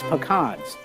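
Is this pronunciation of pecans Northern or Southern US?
Southern. The word is said the Southern US way. "but here it's pecans"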